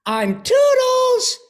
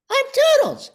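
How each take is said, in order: First: Very high, louder, slow cartoon voice; high chirpy cartoon voice, drawn out; Toodles voice. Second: Very high, louder cartoon voice; high cartoon helper voice; Toodles voice. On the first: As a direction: sing out like a tiny cartoon helper. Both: Shown as a demonstration.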